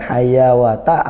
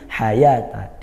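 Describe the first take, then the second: First: A w sound is pronounced in the middle. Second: No w sound; the vowel is held long. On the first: The speaker calls it wrong. "Bukan hayawata" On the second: The speaker calls it right. "tapi hayata, dia dibaca panjang"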